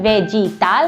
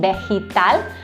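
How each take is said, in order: First: It starts with an English-like V sound. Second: It starts with a B-like sound. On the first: The speaker calls it wrong. "I'm not saying vegetal" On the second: The speaker calls it right. "la V sounds like la B"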